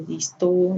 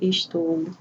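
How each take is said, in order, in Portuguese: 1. A palavra é encurtada, sem a primeira sílaba. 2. A palavra é dita por inteiro, com as duas sílabas.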